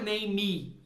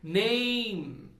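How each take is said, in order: First: The final E is pronounced as a vowel. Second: The final E is silent, no added vowel. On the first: The speaker calls it wrong. "Não é name" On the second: The speaker calls it right. "o E não tem som"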